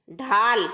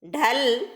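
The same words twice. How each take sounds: First: ढाल with a long, drawn-out aa; teacher's clear ढाल, stretched aa; long vowel. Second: ढल with a short a before the l; teacher's clear ढल, short vowel. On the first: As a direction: dictate ढाल carefully, holding the vowel. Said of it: "आ के उच्चारण में अधिक समय लगता है". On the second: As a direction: dictate ढल carefully, keeping the vowel brief. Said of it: "ए के उच्चारण में कम समय लगता है". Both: Shown as a demonstration.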